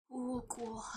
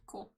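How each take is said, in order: First: Soft breathy whisper of cool. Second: Said in the usual way. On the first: Acted. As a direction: whisper it under your breath.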